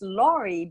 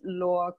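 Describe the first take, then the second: First: The final vowel at the end is sounded. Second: The final vowel at the end is silent. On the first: The speaker calls it wrong. "it's oftentimes pronounced Laurie because the uh, E at the end" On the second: The speaker calls it right. "the final E in French is always silent. So we pronounce it Laure"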